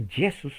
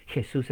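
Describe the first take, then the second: First: "Jesús" with a Y-like first sound; Greek pronunciation. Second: Said in the usual way. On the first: Shown as a demonstration. Preacher tracing the name's origin, Greek pronunciation. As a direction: say Jesús as Ye-sus. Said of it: "en griego". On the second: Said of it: "la palabra Jesús en español".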